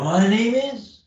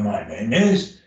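First: Pitch back up. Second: Pitch sliding down. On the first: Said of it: "and come back up". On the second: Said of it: "or I can just go down and do". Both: Shown as a demonstration.

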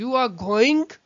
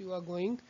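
First: "You are going" as a question, louder, rising on "going"; questioning high intonation. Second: Said in the usual way. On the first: Shown as a demonstration. Teacher demonstrating question intonation to students, rising high on "going". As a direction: lift "going" sharply to ask for confirmation. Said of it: "कोई question पूछ रहे होते हैं". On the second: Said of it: "मैं आपको बता रहा हूँ कि yes".

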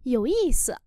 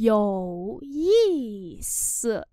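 First: Said in the usual way. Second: Có ý sự read very slowly; slow demo. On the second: Shown as a demonstration. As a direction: draw each syllable of Có ý sự out. (đọc thật chậm Có ý sự) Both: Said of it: "Thú vị".

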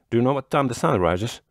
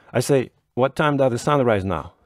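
First: Said in the usual way. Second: Pitched higher, pressing the question again; a bit more emphatic repeat; repeated more insistently. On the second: A narrator's reading. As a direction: say it again so he hears this time. Repeating the question after "What?.

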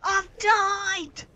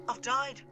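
First: High wail of defeat; dismayed shout. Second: Said in the usual way. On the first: Real, not acted. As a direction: wail that you've lost. Train destroyed in game.

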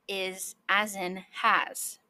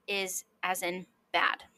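First: "has" with the A drawn out; slow, lengthened vowel in "has"; long ash vowel. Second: "bad" with a short A; short ash vowel. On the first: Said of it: "The long vowel sound is". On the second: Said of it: "The short vowel sound for ash". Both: Shown as a demonstration.

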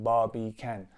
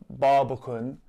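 First: Barbie can with the last syllable a clear, full "can" rhyming with man; Barbie can split like two words, "can" said in full; full can ending. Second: Said in the usual way. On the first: Shown as a demonstration. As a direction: say Barbie can, stressing a full open "can" at the end. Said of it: "pronounce that last syllable as can". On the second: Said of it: "Barbican is pronounced".

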